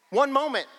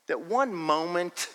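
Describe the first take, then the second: First: ONE moment punched high; stressed, high and loud. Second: Said in the usual way. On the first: Real, not acted. Preacher drives home his point, high and emphatic. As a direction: lift and hit "One moment" hard. Preacher repeats key phrase.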